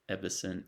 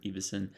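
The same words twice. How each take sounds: First: Ebbesen with a short E, EB-ess-en; pronunciation guess. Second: Ebbesen with a long E, EE-bess-en; alternative pronunciation. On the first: Repeating a creator's surname both ways, short E first. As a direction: open Ebbesen on EB as in ebb. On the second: Repeating a creator's surname both ways, long E second. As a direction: open Ebbesen on EE as in eve. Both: Shown as a demonstration. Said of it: "don't know if the last name is pronounced".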